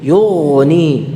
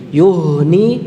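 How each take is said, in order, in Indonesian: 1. Konsonan tengahnya adalah 'gh' yang kasar, seperti berkumur. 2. Konsonan tengahnya adalah 'h' yang berdesah, dari tenggorokan dalam. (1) "Yughni ghain ya" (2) "Yuhni itu ha"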